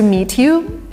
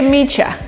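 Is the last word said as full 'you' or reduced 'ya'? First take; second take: full you; reduced ya. First: The last word is said as a full you. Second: The last word is reduced to a short ya. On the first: It sounds formal. "kind of British slash formal" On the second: It sounds casual, as with friends. "an American version"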